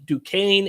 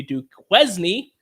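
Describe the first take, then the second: First: Duquesne said "doo-KANE"; correct pronunciation. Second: Duquesne drawn out as "doo-KWEZ-nee"; joking mispronunciation. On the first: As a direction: stretch Duquesne slowly as two syllables, "doo-KANE". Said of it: "A K A Duquesne". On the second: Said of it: "as I used to pronounce them". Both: Shown as a demonstration.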